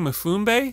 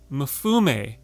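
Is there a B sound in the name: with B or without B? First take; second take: with B; without B. First: The name is said with a B sound. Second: The name is said without a B sound. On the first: The speaker calls it wrong. "Were we saying Mufumbe? I think we were throwing a B in there" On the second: The speaker calls it right. "Can you read it out again?"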